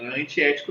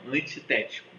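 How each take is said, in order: First: "antiético" said without the extra syllable, as anti-ético; the mistaken form "antiético", ant-i-É-tico; wrong word. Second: "Antitético" with the full an-ti-TÉ-ti-co; correct word. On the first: Teacher showing students the wrong word "antiético". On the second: Teacher correcting students: "Antitético", every syllable. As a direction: stress the té in "Antitético", all syllables clear. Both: Shown as a demonstration. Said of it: "Não é antiético, não".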